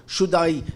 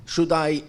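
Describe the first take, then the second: No difference in how they are said.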